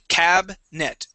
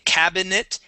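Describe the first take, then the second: First: The middle vowel is dropped entirely. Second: The middle vowel is fully pronounced. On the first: The speaker calls it right. "We would uh, skip right over that I" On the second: The speaker calls it wrong. "we wouldn't say cabinet"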